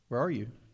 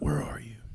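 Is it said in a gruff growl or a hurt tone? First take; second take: hurt; gruff. First: It is a hurt, pained, gentle call. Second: It is a gruff, threatening Batman-like growl.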